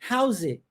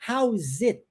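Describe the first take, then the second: First: The words are joined and the final t is dropped. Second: The words are separate and the final t is pronounced. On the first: "eu omito ele, eu digo how's it. Ó, engoli, viu?" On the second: "ao invés de eu dizer how is it, tá vendo esse t do T?"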